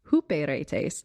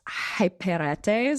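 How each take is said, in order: First: The first syllable sounds like 'hoo'. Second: The first syllable sounds like 'high'. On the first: The speaker calls it right. "But apparently it's huperetes" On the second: The speaker calls it wrong. "to me it should be pronounced hyperetes"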